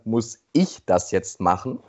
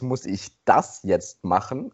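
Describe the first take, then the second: First: The word ich is stressed. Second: The word das is stressed. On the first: It asks whether someone else should do it. "Eine andere Betonung ist dann" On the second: It asks whether something else should be done instead. "Die nächste Betonung ist"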